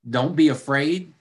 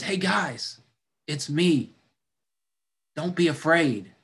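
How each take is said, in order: First: Mocking repeat with a sarcastic rise; sarcastic echo. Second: Gentle, reassuring call over the water; calm them down as a friend; Jesus reassuring. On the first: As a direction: throw his words back at him. Disciples mocking Jesus' words. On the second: Acted. Jesus calming frightened disciples.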